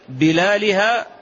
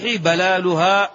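First: The first vowel is an 'i' sound. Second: The first vowel is an 'a' sound. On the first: "بالكسر" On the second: "وبالفتح"

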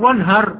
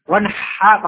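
First: The h is a light, plain h sound. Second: The h is a deep, throaty h sound. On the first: It means to be harsh. The speaker calls it wrong. "Jangan wanhar. Wanhar artinya bersikap keras ya" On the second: It means to offer a sacrifice. The speaker calls it right. "Wanha pakai ha"

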